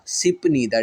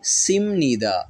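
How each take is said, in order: First: The first syllable ends in a p sound. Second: The first syllable ends in an m sound. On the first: "rule लगाने के बगैर पढ़ के देखते हैं।" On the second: "पे नहीं पढ़ी जाएगी बल्कि किस में बदल जाएगी, मीम में बदल जाएगी।"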